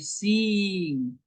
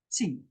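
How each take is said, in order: First: The vowel is drawn out long. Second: The vowel is short and quick. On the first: The speaker calls it wrong. "You you can't say sing" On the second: The speaker calls it right. "It's it's short"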